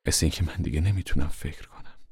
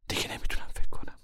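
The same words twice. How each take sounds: First: Said in the usual way. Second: Whispered, lost in thought; dazed whispered repeat. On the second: Acted.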